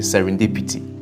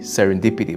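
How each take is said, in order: First: It is said in a Ghanaian accent. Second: It is said in an American accent. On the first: "we are Ghanaians, we say serendipity" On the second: "I'm sure Americans will say serendipity"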